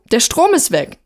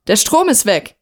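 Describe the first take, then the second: First: Higher, more pressing call through a door; insistent calling out. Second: Mildly raised call through a closed door. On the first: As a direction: repeat it insistently to someone behind a door. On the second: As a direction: call out the news, restrained. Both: A narrator's reading. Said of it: "rief sie durch die geschlossene Tür".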